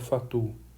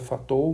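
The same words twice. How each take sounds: First: The name is said with a French pronunciation. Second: The name is said with a Portuguese pronunciation. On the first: The speaker calls it right. "matemático francês, a pronúncia é mais ou menos essa que eu falo aqui" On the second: The speaker calls it wrong. "se for ler aqui na pronúncia português, é, seria Fatou"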